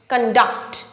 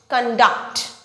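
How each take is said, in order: First: The stress is on the second syllable. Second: The same.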